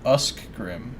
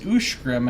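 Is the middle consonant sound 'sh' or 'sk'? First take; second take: sk; sh. First: The middle consonant sound is 'sk'. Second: The middle consonant sound is 'sh'. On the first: The speaker calls it wrong. "and not Uskgrim" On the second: The speaker calls it right. "is pronounced is Ushgrim"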